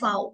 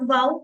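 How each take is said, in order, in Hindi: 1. अक्षर के नाम की शुरुआत 'f' ध्वनि से होती है। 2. अक्षर के नाम की शुरुआत 'v' ध्वनि से होती है। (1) "बट फाओ" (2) "नॉट वाओ"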